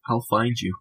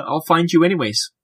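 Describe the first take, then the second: First: Softer, quietly ominous repeat; mock ominous. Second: Said in the usual way. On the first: Host to listeners who post photos, mock ominous. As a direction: drop it quietly, like a joking threat. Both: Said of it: "that didn't sound ominous at all".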